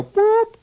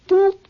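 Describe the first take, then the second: First: High, loud imitated whistle blast; a sharp high whistle sound with the voice; whistle boop. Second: High, loud imitated whistle blast; whistle boop. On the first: Lab men blow the whistle at the squirrel, high loud boop. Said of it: "they go". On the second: Lab men blow the whistle again, high loud boop. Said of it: "Then they go".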